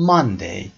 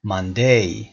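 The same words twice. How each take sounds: First: Monday with a strong first syllable; stress on first syllable. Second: Monday wrongly stressed on DAY; Monday said mon-DAY, second syllable punched. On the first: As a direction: hit MON hard, let day drop. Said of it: "استرس کدوم قسمت؟ قسمت اول". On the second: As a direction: push the weight onto day in Monday. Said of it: "این اشتباه هست". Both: Shown as a demonstration.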